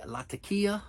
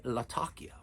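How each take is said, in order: First: "Latakia" as lat-uh-KEE-uh; first pronunciation variant. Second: "Latakia" as luh-TAH-kee-uh; second pronunciation variant. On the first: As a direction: say "Latakia" with stress near the end, lat-uh-KEE-uh. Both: Shown as a demonstration. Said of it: "Some people say Latakia and some people say Latakia".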